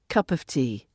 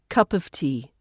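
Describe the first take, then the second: First: The word 'of' is reduced to a schwa. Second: The same.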